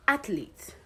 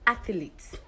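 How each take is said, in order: First: Athlete said as ATH-leet, with two syllables; correct pronunciation. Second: Athlete said as ATH-uh-leet, with an extra vowel; mispronunciation. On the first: Teacher contrasting for students the right way: athlete. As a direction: Athlete the right way, nothing added between TH and L. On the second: Teacher contrasting for students the wrong way: athlete. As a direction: athlete the wrong way, an added syllable before the L. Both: Shown as a demonstration. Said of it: "Now let's look at the difference".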